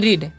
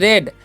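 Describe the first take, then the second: First: The vowel is long, like 'reed'. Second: The vowel is short, like 'red'. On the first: The speaker calls it wrong. "Sorry रेड" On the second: The speaker calls it right. "Sorry रेड"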